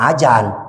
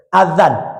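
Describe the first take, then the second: First: The middle consonant is a J sound. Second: The middle consonant is a soft TH-like sound. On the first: The speaker calls it wrong. "Jangan ajan" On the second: The speaker calls it right. "Itu yang betul"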